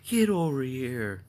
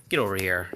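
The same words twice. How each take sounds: First: Drawn-out, higher call to a dog. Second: Said in the usual way. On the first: Real, not acted. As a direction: stretch each word out, calling the dog over. Calling the dog, repeated drawn out.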